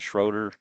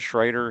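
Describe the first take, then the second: First: The name is said with an 'oh' vowel. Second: The name is said with an 'ay' vowel. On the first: This is how someone else says the name. "He's saying Schroeder" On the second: This is how I say the name. "I'm saying Schrader"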